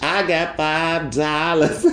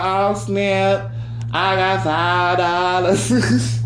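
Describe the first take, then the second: First: Slow, giggling; laughing boast. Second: High, slow, thrilled over five dollars; over-the-top excitement. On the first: Shown as a demonstration. To listeners, bragging with laughter, slow. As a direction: laugh through the brag. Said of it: "you just make it a big deal". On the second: Retold or imitated. To friends, thrilled to find five dollars, mock excited. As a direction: savour every word like a jackpot. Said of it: "You be like".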